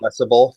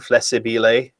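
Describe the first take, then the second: First: The word is said with three syllables. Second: The word is said with four syllables. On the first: The speaker calls it wrong. "It's not" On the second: The speaker calls it right. "that is the correct pronunciation"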